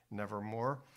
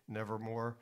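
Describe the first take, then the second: No difference in how they are said.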